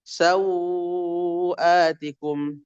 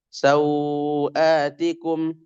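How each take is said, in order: First: The vowel before the hamza is held four beats. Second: The vowel before the hamza is held two beats. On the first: "empat harokat" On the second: "dua harkat"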